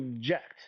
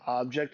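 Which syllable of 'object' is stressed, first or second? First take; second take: second; first. First: The stress is on the second syllable. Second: The stress is on the first syllable. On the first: The speaker calls it right. "You object" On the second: The speaker calls it wrong. "You don't object"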